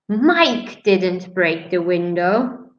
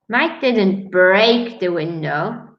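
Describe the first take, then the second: First: The stress falls on the word Mike. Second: The stress falls on the word break. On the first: Someone else broke the window. "that means maybe someone else did" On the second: He did something else to the window. "He only closed it"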